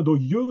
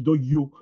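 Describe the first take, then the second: First: DOYEUX ending in rounded eu; rejected local form. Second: DOYO ending in a clear o; Wagnaru pronunciation. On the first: Lecturer cites what Wagnaru does not say, contrasted pronunciation. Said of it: "On ne dit pas". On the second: Lecturer gives the form Wagnaru uses, local pronunciation. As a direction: say Doyo with o, not eu. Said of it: "on dit". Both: Shown as a demonstration.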